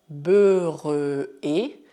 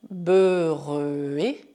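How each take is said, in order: No difference in how they are said.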